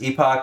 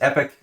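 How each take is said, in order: First: The word is said the British way. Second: The word is said the American way. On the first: "the British is epoch" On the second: "the American pronunciation is epic"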